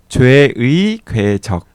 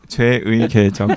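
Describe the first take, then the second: First: The vowel 의 is pronounced carefully and clearly. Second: The vowel 의 is pronounced in a simplified way.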